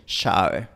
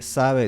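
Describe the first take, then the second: First: "sabe" dicho "shabe"; asibilated s. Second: Said in the usual way. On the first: Shown as a demonstration. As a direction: di "sabe" con sh. ("sabe" como "shabe") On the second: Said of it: "En vez de decir".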